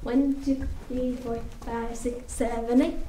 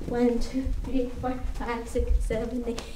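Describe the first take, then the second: No difference in how they are said.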